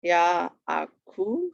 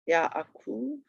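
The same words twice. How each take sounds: First: YAAKOV drawn out, ya-a-kov; syllable by syllable. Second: Said in the usual way. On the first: Shown as a demonstration. Teacher showing students the accent, "Yaakov" slowly broken up. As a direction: sound out "Yaakov" slowly, rising at the end. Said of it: "accent on the last syllable". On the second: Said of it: "That should sound a little familiar".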